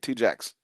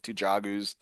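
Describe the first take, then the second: First: The name sounds like the words 'two jacks'. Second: The name is not said like 'two jacks'. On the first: The speaker calls it right. "That's how you say it" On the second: The speaker calls it wrong. "we're just butchering the shit out of this"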